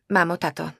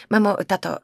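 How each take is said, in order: First: "mamo, tato" said haltingly, unsure; nervous address, voice a little raised; hesitant. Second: "Mamo, tato" said firmly with falling tune on "Mamo". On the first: Daughter nervously addresses her parents before bad news. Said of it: "hesitant then firm address". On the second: Daughter firmly demands her parents' attention, decisive. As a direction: address them clearly and decisively. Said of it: "firm address vs earlier hesitant". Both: Acted.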